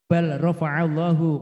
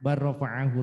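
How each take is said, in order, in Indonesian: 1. L diucapkan dengan jelas sebelum R. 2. L menyatu ke dalam bunyi R ganda. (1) "Bukan dibaca bal" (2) "tapi bar"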